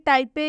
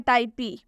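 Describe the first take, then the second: First: The word ends with an added short e vowel. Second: The word ends with an added long ee vowel. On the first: "ना कि टाइपे" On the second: "या टाइपी"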